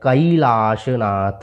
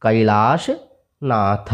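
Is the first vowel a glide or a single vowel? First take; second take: glide; glide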